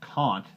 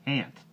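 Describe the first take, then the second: First: The vowel is a broad British 'ah'. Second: The vowel is a flat American 'a'.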